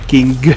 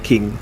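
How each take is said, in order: First: The n and a hard g are both heard. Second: The n and g merge into one nasal. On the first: The speaker calls it wrong. "We don't say king" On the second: The speaker calls it right. "We say king"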